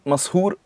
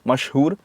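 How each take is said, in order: First: The word is said with a plain 's' sound. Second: The word is said with an 'sh' sound. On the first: The speaker calls it wrong. "नहीं" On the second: The speaker calls it right. "तो स श वाला इशू है"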